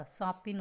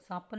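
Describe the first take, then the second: First: सांपिन ending in "-in"; short "i" in the last syllable of सांपिन; correct pronunciation. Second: सांपन ending in "-an"; "a" in the last syllable of सांपन; wrong pronunciation. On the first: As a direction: say सांपिन as saa-pin. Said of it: "सांपिन होता है". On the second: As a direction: say सांपन as saa-pan. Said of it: "सांपन नहीं होता". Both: Shown as a demonstration.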